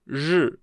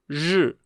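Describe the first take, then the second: No difference in how they are said.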